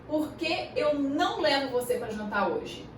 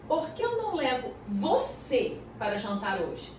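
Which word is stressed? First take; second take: por que; você. First: The words por que are stressed. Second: The word você is stressed. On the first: It asks for the reason not to go to dinner. "Qual que é o motivo para eu não te levar para jantar hoje?" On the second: It is you rather than someone else. "Ou seja, você ao invés de outra pessoa"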